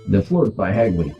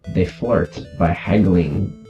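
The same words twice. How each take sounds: First: It is spoken in the speaker's ordinary accent. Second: It is spoken with a put-on Russian accent.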